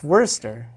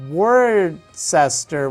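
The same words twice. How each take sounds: First: The name is shortened to two syllables. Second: Every written syllable of the name is sounded. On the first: This is how people who live there say it. The speaker calls it right. "my family there, you know, it's it's Worcester" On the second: This is how the spelling suggests it is said. The speaker calls it wrong. "it looks like Worcester"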